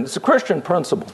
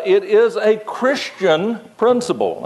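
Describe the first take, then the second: First: "Christian" punched, rest light and quick; stress on Christian. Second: Acento en "is", no en "Christian"; "it IS a Christian principle", peso en "is"; stress on is. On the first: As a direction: land the weight on "Christian". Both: Shown as a demonstration. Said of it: "I could have emphasized the word Christian".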